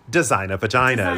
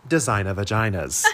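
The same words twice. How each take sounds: First: It is said in a British accent. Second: It is said in a plain American accent.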